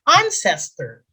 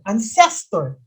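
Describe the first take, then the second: First: The stress is on the first syllable. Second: The stress is on the second syllable. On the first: The speaker calls it right. "the accent is on the first syllable" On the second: The speaker calls it wrong. "That second syllable, that, that's not the correct way of pronouncing it"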